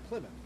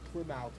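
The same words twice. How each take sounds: First: The ending is reduced, sounding like 'muth'. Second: The ending is full, sounding like 'mouth'. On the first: The speaker calls it right. "We say Plymouth" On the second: The speaker calls it wrong. "We don't say Plymouth Rock"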